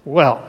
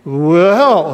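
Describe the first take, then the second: First: Said in the usual way. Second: Put-on light Scandinavian accent on Well; drawn-out Scandinavian-accented Well. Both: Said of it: "he said with his Scandinavian brogue".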